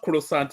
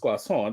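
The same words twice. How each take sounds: First: It is pronounced in an English-sounding way. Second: It is pronounced in a French-sounding way. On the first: The speaker calls it wrong. "Don't give your inflection. So it's not croissant" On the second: The speaker calls it right. "it's croissant. That's that's what they call it"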